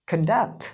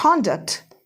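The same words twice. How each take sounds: First: conduct as kun-DUCT, lower; weak first syllable in conduct, lean on DUCT; second-syllable stress. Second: conduct as KON-duct, slow; full open KON in conduct; first-syllable stress. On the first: Teacher drills word pairs with students, conduct stressed as kun-DUCT. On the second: Teacher drills word pairs with students, conduct stressed as KON-duct. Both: Shown as a demonstration. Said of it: "सारे के सारे words एक बार पढ़ लो".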